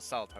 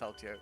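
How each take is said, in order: First: The name is said without an 'ee' sound before 'o'. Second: The name is said with an 'ee' sound before 'o'. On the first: The speaker calls it wrong. "It's not Salto" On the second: The speaker calls it right. "it's Saltio"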